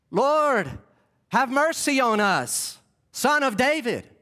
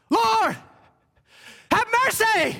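First: Higher-pitched but controlled call, no yelling; a tidy, measured appeal, as it didn't go; polite, restrained plea. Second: High-pitched desperate yell, held short of full throat; crying out. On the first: Shown as a demonstration. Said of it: "So it didn't go like". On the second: Acted. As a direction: cry out to be heard over a crowd. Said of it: "And I can't yell full throat".

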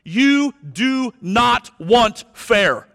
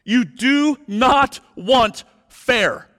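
First: Slow, loud, high, every word weighted; "You do not want fair" with each word hammered slowly; emphatic warning. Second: Slow, loud, high, weight on "not"; "You do NOT want fair" leaning hard on "not"; stress on not. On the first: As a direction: press each word home to the congregation. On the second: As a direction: repeat it with the hit moving to not. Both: Real, not acted. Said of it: "listen to me".

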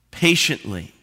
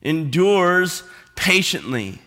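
First: Said in the usual way. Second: "Endures" stressed, said slowly; preacher repeating the key word; slow emphatic repeat. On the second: Shown as a demonstration. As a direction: lean on "Endures" and draw it out.

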